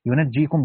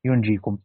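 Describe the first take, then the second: First: ينجيكم as "yunajjīkum", j held double; "yu-naj-jī-kum", the tashdid reading of ينجيكم; doubled jim. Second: ينجيكم as "yunjīkum", j not doubled; "yun-jī-kum", the takhfif reading of ينجيكم; light single jim. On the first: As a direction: say ينجيكم with a vowel after n and doubled j. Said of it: "بالتشديد". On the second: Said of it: "وقرأ الآخرون هذا بالتخفيف". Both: Shown as a demonstration.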